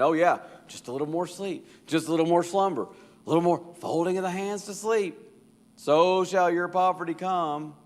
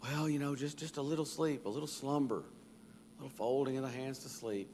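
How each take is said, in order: First: Higher and louder sarcastic taunt; mock the lazy man's excuse back at him; mockingly. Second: Softer, drowsy sleepyhead begging; lazy man. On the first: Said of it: "kinda mockingly saying". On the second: Acted. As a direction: mumble it like you can't open your eyes. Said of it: "the response of the lazy man".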